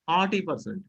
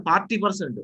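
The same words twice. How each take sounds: First: "forty" with no R before the T; silent R. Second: "forty" with the R heard before the T; sounded R. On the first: Teacher correcting students after "no", "forty" without R. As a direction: drop the R inside "forty". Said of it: "R should be removed from your pronunciation". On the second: Teacher showing the mistake, "forty" with R sounded. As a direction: pronounce the R in "forty". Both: Shown as a demonstration.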